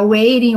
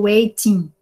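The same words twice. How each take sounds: First: "waiting" said as "wei-rin", T tapped. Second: "waiting" said as "wei-tin", T fully sounded; clear T. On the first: Teacher lets students choose, "waiting" with tapped T. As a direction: soften the T in "waiting" to a tap. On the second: Teacher lets students choose, "waiting" with clear T. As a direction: hit a true T in "waiting". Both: Shown as a demonstration. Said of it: "do jeito que você quiser falar".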